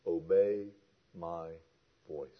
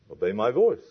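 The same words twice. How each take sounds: First: OBEY... MY... VOICE, each softer and set apart by pauses; word by word. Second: Said in the usual way. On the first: Shown as a demonstration. Preacher makes the command simple, "Obey, my, voice" spaced out. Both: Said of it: "Let's make this real simple".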